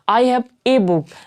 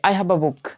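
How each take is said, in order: First: The article is a full, stressed 'ay' sound. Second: The article is a short, weak 'uh' sound. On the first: The speaker calls it wrong. "तो हम लोग क्या कहते हैं" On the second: The speaker calls it right. "ऐसे कहना चाहिए"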